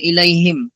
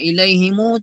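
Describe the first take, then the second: First: The word ends in a bare m sound. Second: The word ends with an added u vowel. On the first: It is the original form on its own. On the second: It links to the next word.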